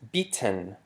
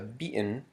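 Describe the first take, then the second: First: The middle t is a fully released t. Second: The middle t is a glottal stop. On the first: The speaker calls it wrong. "it's not pronounced beaten" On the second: The speaker calls it right. "which we use the glottal stop"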